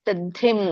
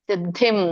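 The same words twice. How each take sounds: The two takes are said the same way.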